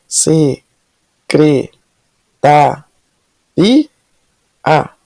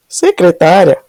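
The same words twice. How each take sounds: First: Se-cre-ta-ri-a said very slowly, each syllable apart; syllables split apart. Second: Said in the usual way. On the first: Shown as a demonstration. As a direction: break secretária into its syllables one by one. (separando as sílabas: se-cre-ta-ri-a)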